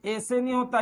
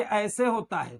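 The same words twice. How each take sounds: First: ऐसे said as "ese"; ऐसे with no "a" glide; wrong single vowel. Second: ऐसे said as "aa-ese"; two-part vowel at the start of ऐसे; correct double vowel. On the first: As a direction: begin ऐसे on a pure "e". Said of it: "ये ऐसे होता है". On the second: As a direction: open ऐसे on "a", glide to "e". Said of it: "तो ये ऐसे नहीं होता". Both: Shown as a demonstration.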